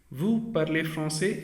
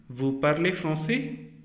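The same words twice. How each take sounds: First: Measured statement, "français" not raised; statement intonation. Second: Slow question, "français" raised at the end; a deliberate question with the rise on "français"; rising question intonation. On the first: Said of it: "is sentence". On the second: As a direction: ask it slowly, lifting "français". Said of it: "That is a question". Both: Shown as a demonstration.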